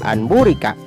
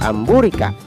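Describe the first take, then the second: First: The nasal before the b sounds like n. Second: The nasal before the b sounds like m. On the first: The speaker calls it wrong. "tidak boleh dibaca anburika" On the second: The speaker calls it right. "tetapi harus dibaca amburika"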